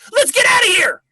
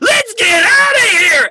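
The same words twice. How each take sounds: First: The line is delivered somewhat less intensely. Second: The line is delivered with very high intensity. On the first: "dial it down like eight, like twenty percent" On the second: "You're better to go"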